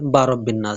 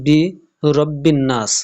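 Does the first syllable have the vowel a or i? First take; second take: a; i. First: The first syllable is said with the vowel a. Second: The first syllable is said with the vowel i. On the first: The speaker calls it wrong. "অনেকে পড়ে বা রব্বিন নাস" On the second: The speaker calls it right. "যেমন এখানে আছে বি রব্বিন নাস"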